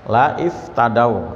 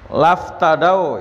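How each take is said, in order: First: The 'i' vowel after 'la' is pronounced. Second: The 'i' vowel is dropped, joining 'la' to 'ftadau'. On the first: This is the underlying form, allowed outside the Quran. "Ini sebenarnya la iftadau" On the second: This is the required reading in the Quran. "karena hamzahnya wasal maka bacanya laftadau"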